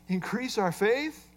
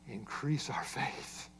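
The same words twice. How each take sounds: First: "Increase our faith" repeated with a questioning rise on faith; mock pious question. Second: "Increase our faith" said slowly and hushed, much softer and lower, falling away; reverent soft read. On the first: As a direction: echo "Increase our faith" back as a doubtful question, rising on faith. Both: Shown as a demonstration. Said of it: "This sounds so spiritual".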